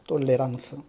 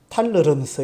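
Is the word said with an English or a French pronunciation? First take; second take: French; English. First: It is said with a French pronunciation. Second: It is said with an English pronunciation. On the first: "프랑스식으로 발음하면" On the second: "영어식으로 발음하면"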